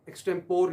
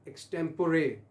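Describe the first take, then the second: First: "एक्सटेम्पोर" said with the final e dropped, eks-tem-pore; wrong pronunciation. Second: "एक्सटेम्पोरे" with the final e sounded, eks-tem-puh-ray; correct pronunciation. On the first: Teacher shows the common mistake "एक्सटेम्पोर" that students make. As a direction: clip "एक्सटेम्पोर" short at the end. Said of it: "नहीं पढ़ना इसको". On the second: Teacher models the right "एक्सटेम्पोरे" for students. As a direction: stretch the last syllable of "एक्सटेम्पोरे". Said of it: "एक्सटेम्पोर नहीं पढ़ना इसको". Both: Shown as a demonstration.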